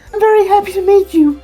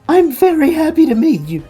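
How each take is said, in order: First: It is said in a voice other than the pig's. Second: It is said in a put-on pig voice.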